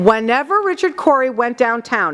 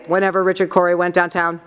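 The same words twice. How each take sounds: First: Some words are emphasized, like Richard Corey and town. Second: The words are read flatly, without emphasis. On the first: The speaker calls it right. "is how she sounded" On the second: The speaker calls it wrong. "She didn't say"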